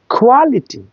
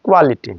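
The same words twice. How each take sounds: First: কোয়ালিটি higher, opening like খ; aspirated K. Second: কোয়ালিটি with a plain K, no puff; unaspirated K. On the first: Teacher modelling the right take, aspirated কোয়ালিটি. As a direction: puff the first sound of কোয়ালিটি. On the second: Teacher showing what to avoid, unaspirated কোয়ালিটি. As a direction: keep the start of কোয়ালিটি breathless. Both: Shown as a demonstration. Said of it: "not কোয়ালিটি".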